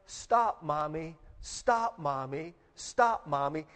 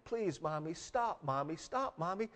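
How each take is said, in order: First: Imitated crying out. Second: Soft, small mock whimper; imitated whimper. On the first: Hurt girl begging Mommy to stop cleaning her knees, retold cry. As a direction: plead in repeated bursts, each falling away, imitating a child. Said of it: "she begins to cry". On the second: Little girl begging Mommy to stop, retold soft whimper. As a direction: plead quietly, imitating a worn-out hurt child. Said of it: "begins to just whimper a little bit".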